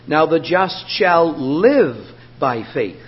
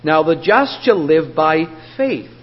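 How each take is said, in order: First: The stress is on the word live. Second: The stress is on the word faith.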